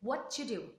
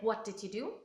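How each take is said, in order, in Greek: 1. Το t παραλείπεται και οι λέξεις ενώνονται μεταξύ τους. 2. Κάθε λέξη λέγεται πλήρως και χωριστά. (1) "Το ταφ από το what χάθηκε και προφέραμε το d από το did" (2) "Δεν θα λέγαμε"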